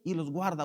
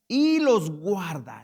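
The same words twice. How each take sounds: First: Y los guarda, said softer with the weight on y; softer repeat. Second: Y los guarda, drawn out slowly and loud; slow emphatic reading. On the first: Preacher repeats the verse softly to the church, stressing y. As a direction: quietly lean on y in y los guarda. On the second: Preacher stresses the verse to the church, slow and loud. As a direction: stretch y los guarda for weight. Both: Shown as a demonstration.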